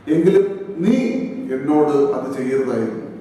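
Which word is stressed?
നീ. The stress is on the word നീ.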